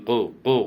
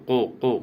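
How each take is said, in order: Both takes have the same delivery.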